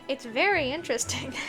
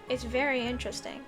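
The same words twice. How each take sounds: First: The voice sounds lively and interested. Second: The voice sounds flat and uninterested.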